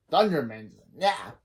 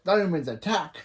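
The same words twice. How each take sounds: First: Mock the rallying call with a sleepy twist; lazy parody. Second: Rallying shout with a rise at the end; battle cry. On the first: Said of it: "and Balfour says". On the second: Retold or imitated. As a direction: call the team to charge. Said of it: "when Hank said".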